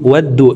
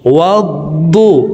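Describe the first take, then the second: First: The d sound is light, like plain d. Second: The d sound is heavy and thick. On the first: The speaker calls it wrong. "দদের উচ্চারণ দালের উচ্চারণ করে থাকি, ওয়াদ্দু ওয়াদ্দু এইভাবে পড়ে থাকি" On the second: The speaker calls it right. "মোটা করে উচ্চারণ করব"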